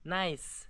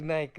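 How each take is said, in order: First: The word ends with an s sound. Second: The word ends with a k sound. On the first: The speaker calls it right. "Say nice" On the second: The speaker calls it wrong. "why are you saying Nike, Nike, Nike?"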